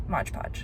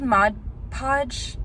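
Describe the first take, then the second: First: Mod Podge said as Modge Podge, whispered low; her own version. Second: Mod Podge with a plain d, Mod then Podge; correct name. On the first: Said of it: "I think Mod Podge sounds better". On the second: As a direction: says Mod Podge the proper way. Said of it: "I have been calling it Mod Podge". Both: Shown as a demonstration.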